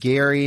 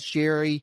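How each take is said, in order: First: The name begins with a hard G sound. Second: The name begins with a soft J sound. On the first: "I've heard more folks saying Gary" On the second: "pronounced as Jerry"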